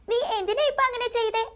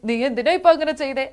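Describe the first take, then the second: First: The voice sounds like a small child's. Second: The voice sounds more mature and grown-up. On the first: "ഒരു കുഞ്ഞു character ആണെങ്കിൽ" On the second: "ഒരു കുറച്ച് matured voice ആണെങ്കിൽ"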